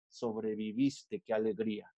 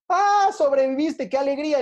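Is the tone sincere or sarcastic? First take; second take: sarcastic; sincere. First: It is said grudgingly and sarcastically. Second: It is said warmly and sincerely.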